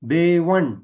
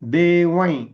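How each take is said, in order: First: The word ends in a retroflex n sound. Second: The word ends in a nasalized y sound. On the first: The next word begins with a retroflex consonant. "अण वर्गीय अनुनासिक वापरलं तर" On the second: The next word begins with y. "पहिलं अक्षर य असेल तर"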